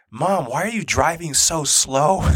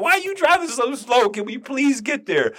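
First: Drawn-out whine from the back seat; slow, higher imitation of a complaining kid; Hudson. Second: High-pitched exasperated pleading; impatient inner plea. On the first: Son asks mom from the back seat, drawn-out complaint. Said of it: "Hudson goes". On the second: Retold or imitated. Man in too much pain silently begs his wife, high impatient plea. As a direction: mock-desperate begging, much higher than usual. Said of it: "I was thinking the same thing".

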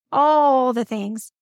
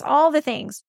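First: "all" stretched out long and slow; slow, emphatic repeat with a long "all"; stress on "all". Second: Said in the usual way. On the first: Real, not acted. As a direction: draw out the word "all" for emphasis.

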